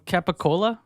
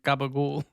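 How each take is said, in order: First: It starts with K and ends in a. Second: It starts with G and ends clipped. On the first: "I don't know how to say it, but uh" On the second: "the dialect that they pronounce it sounds like"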